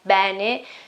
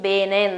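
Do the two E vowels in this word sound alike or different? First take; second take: different; alike. First: The first E is more open than the second. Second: Both E vowels sound the same. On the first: This is the standard pronunciation. "not bene" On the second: This is how it is said in the north. "both of them are the same, bene"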